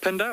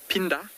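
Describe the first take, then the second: First: The name is said with an English-style pronunciation. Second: The name is said with an isiZulu-style pronunciation. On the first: The speaker calls it wrong. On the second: The speaker calls it right.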